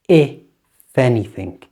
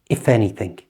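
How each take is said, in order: First: The phrase is spoken slowly. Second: The phrase is spoken at normal speed. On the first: "Listen slowly first" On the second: "And at normal speed"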